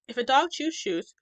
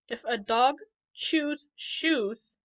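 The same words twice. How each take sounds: First: The sentence is spoken very fast. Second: The sentence is spoken slowly. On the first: "as fast as we can" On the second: "I'm going to say it slowly"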